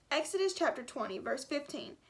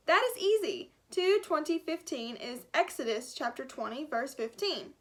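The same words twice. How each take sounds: First: Said in the usual way. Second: Put-on thick German accent, brisk and sure. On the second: Gutenberg telling Miguel the verse, in a thick German accent. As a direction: answer like a proud German scholar. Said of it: "a thick German accent".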